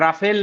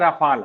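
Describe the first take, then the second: First: The second vowel sounds like 'e'. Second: The second vowel sounds like 'a'. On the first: The speaker calls it wrong. "राफेल नहीं है" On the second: The speaker calls it right. "राफाल है"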